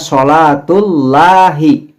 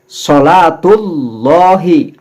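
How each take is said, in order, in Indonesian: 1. Bunyi L pada Allah terdengar tipis dan ringan. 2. Bunyi L pada Allah terdengar tebal dan gelap. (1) "Jadi tidak bisa membaca sholatullahi" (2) "lam jalalah pada kalimat Allah ini dibaca juga domah"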